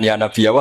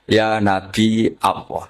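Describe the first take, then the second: First: "Nabi Allah" quickly joined as nabiyallah; run together. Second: Slow, drawn-out "Nabi", catch, then "Allah"; separated by hamzah. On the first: Teacher shows the wrong form, Nabi Allah run together. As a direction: glide from "Nabi" into "Allah" without a break. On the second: Teacher shows the right form, slow hamzah after Nabi. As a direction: stretch "Ya Nabi" and break before "Allah". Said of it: "tapi apa?". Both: Shown as a demonstration.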